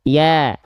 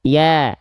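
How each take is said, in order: First: The vowel is said with smiling, spread lips. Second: The same.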